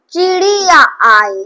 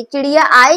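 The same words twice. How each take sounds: First: चिड़िया आई read slowly, stretching चि, ड़ि and या; syllable by syllable. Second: Said in the usual way. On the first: Shown as a demonstration. Teacher showing the sign occurs twice, syllable by syllable. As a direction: draw out each syllable of चिड़िया before आई. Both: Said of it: "चिड़िया में दो बार छोटी ई की मात्रा लगी".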